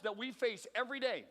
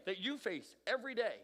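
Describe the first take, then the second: First: Said in the usual way. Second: "you" picked out with emphasis; stress on YOU. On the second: Real, not acted. Speaker turns it on the listeners, stressing "you". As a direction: lean on "you", then let "face every day" follow.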